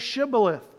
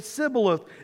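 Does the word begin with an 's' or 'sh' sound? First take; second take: sh; s. First: The word begins with a 'sh' sound. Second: The word begins with an 's' sound. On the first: The speaker calls it right. "the people from Ephraim could not say the sh sound" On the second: The speaker calls it wrong. "They would say Siboleth. It would give them away"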